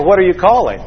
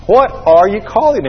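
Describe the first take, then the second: First: Said in the usual way. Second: "What" and "are" set apart, "calling" pitched up; emphatic repeat. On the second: Shown as a demonstration. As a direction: lean on each word of "What are you calling". Same question repeated for emphasis.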